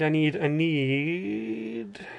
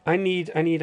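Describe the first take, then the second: First: Slow drawn-out mock shout. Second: Said in the usual way. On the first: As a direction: stretch "I need, I need" out very slowly in a strange voice. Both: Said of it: "someone shouted at me".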